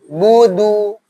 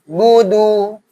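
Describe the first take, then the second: The two takes are said the same way.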